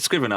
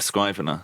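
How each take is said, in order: First: The first vowel is short, as in give. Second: The first vowel is long, as in five. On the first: The speaker calls it right. "You said scrivener" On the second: The speaker calls it wrong. "I went scrivener"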